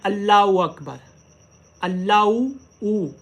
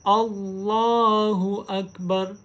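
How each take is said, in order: First: अल्लाहु with the h dropped to ऊ; अल्लाहु ऊ, swallowing the h; wrong takbir. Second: अल्लाहु with a clear h; slow अल्लाहु अकबर, h sounded; careful अल्लाहु, h kept; correct takbir. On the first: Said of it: "हमज़ा पेश ऊ, इसकी आवाज़". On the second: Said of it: "इसको अल्लाहु नहीं पढ़ना". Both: Shown as a demonstration.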